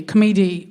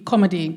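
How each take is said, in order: First: "comedy" with the stress slipping to the middle; stumbled pronunciation. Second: Said in the usual way. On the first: Real, not acted. Comic fumbling her English, "comedy" mispronounced as kuh-MEE-dee. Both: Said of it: "I can't speak English".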